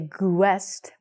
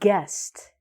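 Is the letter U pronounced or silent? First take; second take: pronounced; silent. First: A U sound is heard after the G. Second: No U sound is heard after the G. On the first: The speaker calls it wrong. "we don't say guest" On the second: The speaker calls it right. "We say guest"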